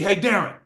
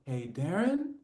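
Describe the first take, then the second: First: The greeting is rough and gruff. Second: The greeting is light and soft. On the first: It matches the caller's own tone. The speaker calls it right. "if he sounds like freaking Darren just got off a damn jackhammer" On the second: It does not match the caller's own tone. The speaker calls it wrong. "oh God, he's gonna smoke me"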